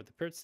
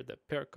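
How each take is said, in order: First: Pirc ending in ts; Pirc as "perts". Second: Pirc ending in a hard k; Pirc as "perk". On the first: Host tells viewers the topic, Pirc as "perts". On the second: Host tells viewers the topic, Pirc as "perk". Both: Shown as a demonstration. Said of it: "Whatever it is".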